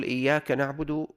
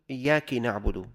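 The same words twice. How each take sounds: First: Said in the usual way. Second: إياك said "iyyaki", with i after the kaf; kasra on kaf. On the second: Shown as a demonstration. Teacher giving an example of a mistake, إياك said "iyyaki". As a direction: put an i vowel on the kaf of إياك. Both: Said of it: "بكسر الكاف".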